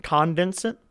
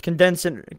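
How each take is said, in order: First: "Condense" with an open first vowel, KAHN-dense; full first vowel. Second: "condense" with a reduced first vowel, kun-DENSE; unstressed first syllable. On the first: Co-hosts unsure how to say it, "Condense" as KAHN-dense. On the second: Co-hosts unsure how to say it, "condense" as kun-DENSE. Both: Shown as a demonstration. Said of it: "I don't know how to say it".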